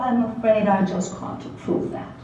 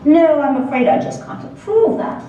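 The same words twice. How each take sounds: First: Softer pseudo-British "I'm afraid I just can't approve that"; pseudo-British professor quietly refusing; quiet refusal. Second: Pseudo-British professor rejecting the topic; firm refusal. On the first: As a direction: turn him down with quiet faked British politeness. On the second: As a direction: refuse in a lightly faked British accent. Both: Acted. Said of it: "in his crisp, pseudo-British accent".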